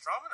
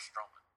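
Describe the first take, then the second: First: "Strowman" with an open "ah" in the first syllable; STRAW-man pronunciation. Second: "Strowman" with a long "oh" in the first syllable; STROH-man pronunciation. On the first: Checking a wrestler's name with co-hosts, "Strowman" said as STRAW-man. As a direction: say "Strowman" as STRAH-mun. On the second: Offering co-hosts the other option, "Strowman" said as STROH-man. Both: Shown as a demonstration. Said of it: "Is it Strowman or Strowman".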